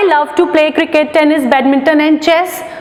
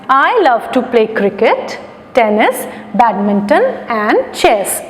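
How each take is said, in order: First: The items run together without pauses. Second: There is a short pause after each item.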